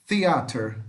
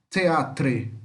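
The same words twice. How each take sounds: First: "theater" ending in -ter with an r; American -ter ending. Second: "teatre" ending in a spelt-out "tre"; British-spelling -tre ending. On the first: ("theater" à americana, terminando em "ter") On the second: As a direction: say "teatre" with the r before the final e. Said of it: "aqui fica tre no final". ("teatre" terminando em "tre", como na grafia britânica) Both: Shown as a demonstration.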